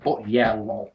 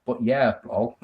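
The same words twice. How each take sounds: First: Said in the usual way. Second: A dry, low, teasing repeat of the sign-off; teasing mock echo. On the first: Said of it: "Philip Connolly says". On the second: Teasing a viewer about his sign-off, mock dry repeat. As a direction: echo their words back to poke fun. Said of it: "I'm teasing".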